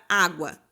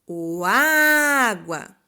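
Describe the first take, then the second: First: Said in the usual way. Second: "água" called out loud with the first A held long; slow, loud "água", all weight on the first A; calling out stressed syllable. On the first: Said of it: "Qual é a sílaba tônica?". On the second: Shown as a demonstration. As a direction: call out "água", stretching its opening A. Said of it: "quando eu chamo a palavra".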